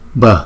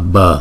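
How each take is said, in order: First: The b sound has a strong puff of breath. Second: The b sound is plain, without extra breath. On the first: "chữ B ghép với chữ H ... Cái hơi chúng ta đưa ra nhiều một chút" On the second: "Chữ B không thì chúng ta đọc là B"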